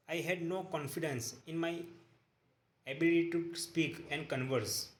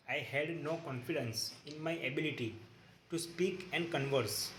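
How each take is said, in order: Both takes have the same delivery.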